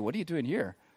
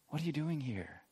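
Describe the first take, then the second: First: It sounds incredulous, as if demanding an explanation. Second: It sounds gentle, as an open invitation to talk.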